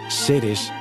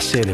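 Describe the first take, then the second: First: The final s sound is clearly pronounced. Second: The final s sound is dropped entirely.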